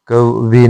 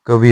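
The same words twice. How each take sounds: First: कवि with long ending; incorrect form. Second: कवि short and light; correct form. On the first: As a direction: draw कवि out as "kav-vee". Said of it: "नहीं होता". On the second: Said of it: "होता है". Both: Shown as a demonstration.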